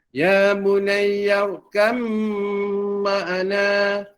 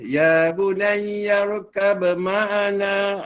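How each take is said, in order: First: The b merges into the m with nasal hum. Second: The b is released with an audible bounce. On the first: The speaker calls it right. "Bila digabungkan, jangan tinggalkan dengung dua harakat" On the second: The speaker calls it wrong. "jangan dibaca, dikolkolahkan ba tu ... tidak baca begitu"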